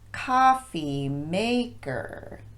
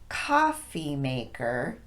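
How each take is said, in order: First: The stress falls on maker instead of coffee. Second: The stress is on coffee; maker is weak. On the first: The speaker calls it wrong. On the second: The speaker calls it right. "We stress the word coffee as we normally would, and then de-emphasize both syllables of maker"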